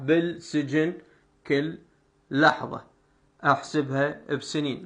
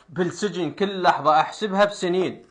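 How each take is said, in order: First: It is read slowly, with every sound pronounced. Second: It is read quickly, with some sounds dropped. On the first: "إذا أحكي بطريقة بطيئة... راح أنطق كل الحروف" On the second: "أنا هنا هسه من أحكي بهاي الطريقة، شكو حرف ما جاي أنطقه أحذفه"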